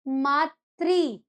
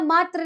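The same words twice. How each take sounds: First: The word ends with a 'tri' sound. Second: The word ends with a 'tra' sound. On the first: It means mother. The speaker calls it right. "Hindi में क्या बोलेंगे उसे?" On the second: It means merely. The speaker calls it wrong. "मातृ नहीं, बहुत बड़ी भाषा है"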